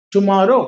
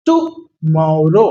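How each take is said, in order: First: Said in the usual way. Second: tomorrow stretched out very slowly for the class; slow pronunciation demo. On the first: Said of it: "फिर थोड़ा fast करिए". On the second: Shown as a demonstration. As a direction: spell tomorrow out in slow motion. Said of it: "मैं धीरे आपको बोल के समझा रहा हूं".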